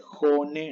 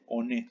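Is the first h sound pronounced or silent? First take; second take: pronounced; silent. First: The word begins with an audible h sound. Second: The word begins with no h sound. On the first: The speaker calls it right. "En japonés se dice jone" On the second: The speaker calls it wrong. "no se dice one"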